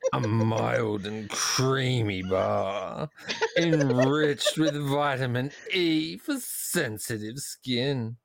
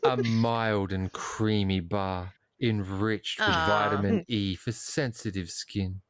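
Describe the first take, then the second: First: It is read in a put-on pet-talk voice. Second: It is read in an ordinary speaking voice.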